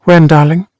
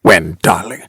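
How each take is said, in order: First: Higher-pitched, light feminine question; questioning wife. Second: Low, mocking echo of her question; impatient aping. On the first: Wife asking her husband what he means, light questioning. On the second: Husband aping his wife's question, impatient mimicry. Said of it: "He apes her impatiently". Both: A narrator's reading.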